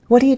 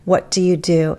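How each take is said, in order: First: The words run together quickly and reduced. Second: Each word is said fully and clearly.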